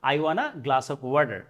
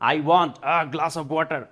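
First: Want a is merged into wanna. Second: Want a is pronounced as two words.

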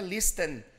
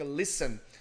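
First: The T sound is pronounced in the middle. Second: The T sound is silent in the middle. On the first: The speaker calls it wrong. "esse T não é listen" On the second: The speaker calls it right. "a gente não pode pronunciar esse T, então fica listen"

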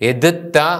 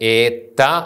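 First: Both middle consonants are said separately. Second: The middle consonants merge into one doubled sound. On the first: The speaker calls it wrong. "എതിത്ത എന്ന് ഉച്ചരിക്കില്ല" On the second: The speaker calls it right. "ഏത്ത എന്നാണ് ഉച്ചരിക്കുന്നത്"

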